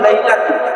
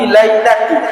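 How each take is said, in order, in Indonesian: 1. Kata ini tidak berakhir dengan vokal i. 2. Kata ini berakhir dengan vokal i. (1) "yang kedua lailatu" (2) "baris kasrah atau baris bawah"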